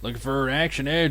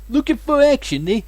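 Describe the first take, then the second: First: It is read in the speaker's ordinary accent. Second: It is read in a put-on Brooklyn accent.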